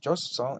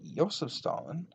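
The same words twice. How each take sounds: First: The first name begins with a 'j' sound. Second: The first name begins with a 'y' sound. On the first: The tank series is called J S. "it's a J S series" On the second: The tank series is called I S. "then that's an I S series"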